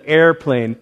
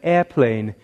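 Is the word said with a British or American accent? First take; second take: American; British. First: It is said with an American accent, with R. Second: It is said with a British accent, no R.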